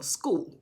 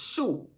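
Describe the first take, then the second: First: The word begins with an 'sk' sound. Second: The word begins with an 'sh' sound. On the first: This is how it is said in the United States. "in the United States. We we pronounce the word school" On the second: This is how it is said in some other countries. "In some countries, they pronounce S C H as shul"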